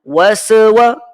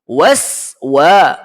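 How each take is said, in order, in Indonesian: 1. Huruf s pertama dipanjangkan dengan bunyi tambahan. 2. Huruf s pertama pendek tanpa bunyi tambahan. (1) "Dengar ya? Waswa. Salah" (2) "Waswa yang betul"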